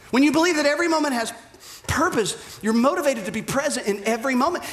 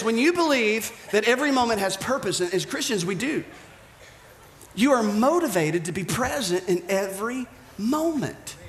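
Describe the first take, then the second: First: Preacher hammering the point the second time; faster, pressing. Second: Said in the usual way. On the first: Shown as a demonstration. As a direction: rush the repeat with urgency. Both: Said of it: "repeated for emphasis".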